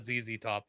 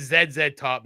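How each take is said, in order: First: "Z Z Top" said zee-zee top, softer; American "zee". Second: "Z Z Top" said zed-zed top; Canadian "zed". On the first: Rejecting the American band name, "Z" as zee. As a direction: say each "Z" as zee. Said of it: "not Z Z Top". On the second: Canadian insisting on the band's name, "Z" as zed. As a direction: say each "Z" as zed. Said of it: "And it is Z Z Top". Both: Shown as a demonstration.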